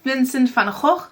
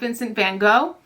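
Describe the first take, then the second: First: The name is pronounced the Dutch way. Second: The name is pronounced the English way. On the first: The speaker calls it right. "I learned that you say his name" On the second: The speaker calls it wrong.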